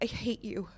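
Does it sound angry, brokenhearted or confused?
brokenhearted. It sounds sad and brokenhearted.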